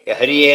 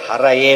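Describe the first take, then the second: First: The second vowel is an 'i' sound. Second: The second vowel is an 'a' sound. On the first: The speaker calls it wrong. "ಹರಿಯೇ ಅಂತ ಓದ್ಕೋಬಾರ್ದು" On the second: The speaker calls it right. "ಹರಯೇ ಅಂತ ಓದ್ಕೋಬೇಕು"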